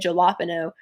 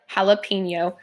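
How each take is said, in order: First: The middle consonant is a plain N sound. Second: The middle consonant is an NY sound. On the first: The speaker calls it wrong. "you're going to sound like an idiot" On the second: The speaker calls it right. "it has that N-Y sound"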